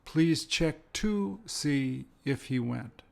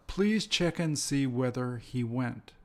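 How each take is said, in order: First: Slow, careful model sentence with "to"; slow example sentence. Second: Slow, careful model sentence; each word set out slowly for learners; slow example sentence. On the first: Teacher modelling the variant slowly for students. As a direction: spell out "to" and "if" slowly. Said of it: "If and whether are interchangeable". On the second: Teacher reading a model sentence slowly to students. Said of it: "here's where one of them is". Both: Shown as a demonstration.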